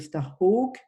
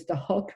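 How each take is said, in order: First: The name is said with French pronunciation. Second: The name is said with English pronunciation. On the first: "on prononce comme ça en français" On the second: "ça devrait être Starhawk"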